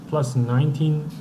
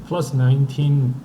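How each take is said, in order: No difference in how they are said.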